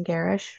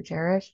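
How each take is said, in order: First: "Garish" with a hard G, as in get; hard-G pronunciation. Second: "Garish" with a soft G, like Jerish; soft-G pronunciation. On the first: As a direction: say "Garish" as GAIR-ish. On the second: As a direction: say "Garish" as JERR-ish, offered as an alternative. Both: Shown as a demonstration. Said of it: "correct my pronunciation of that surname".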